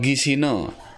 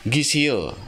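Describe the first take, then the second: First: An n sound comes before the ending. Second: The ending follows the vowel with no n.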